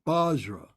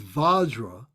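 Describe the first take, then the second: First: The word begins with a B sound. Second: The word begins with a V sound. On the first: "in some cases they'll use a B, a Bajra" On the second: "it means Vajra"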